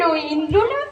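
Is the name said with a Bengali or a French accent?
French. The name is said with a French accent. The speaker calls it wrong. "ফরাসি উচ্চারণে"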